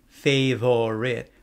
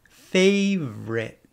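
First: The word is said with three syllables, keeping the middle vowel. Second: The word is said with two syllables, dropping the middle vowel. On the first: "it's not wrong to say favorite" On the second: "drop the optional sound and say favorite"

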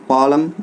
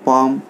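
First: The l is pronounced. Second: The l is not pronounced. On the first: The speaker calls it wrong. "बिल्कुल wrong है" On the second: The speaker calls it right. "एल silent है"

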